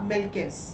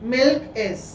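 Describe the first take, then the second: First: The k sound joins onto the next vowel. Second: The two words are said separately.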